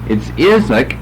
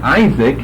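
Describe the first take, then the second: First: The first vowel is a short I. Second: The first vowel is a long I. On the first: The speaker calls it right. "it's a short I" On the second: The speaker calls it wrong. "so it's not Isaac"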